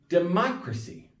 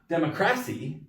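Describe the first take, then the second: First: The stress is on the third-to-last syllable. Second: The stress is on the second-to-last syllable. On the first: The speaker calls it right. "The third to last syllable is stressed" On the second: The speaker calls it wrong. "it's not democracy"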